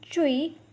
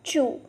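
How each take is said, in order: First: The vowel is not like English 'chew'. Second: The vowel sounds like English 'chew'. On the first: The speaker calls it right. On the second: The speaker calls it wrong. "and not chew"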